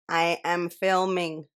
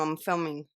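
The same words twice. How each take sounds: First: Slow, spaced-out "I am filming"; slow, emphatic. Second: Said in the usual way. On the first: Real, not acted. Vlogger tells someone she can't talk, slowly spelling out "filming". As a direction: separate each word of "I am filming". Repeats slowly to make it clear.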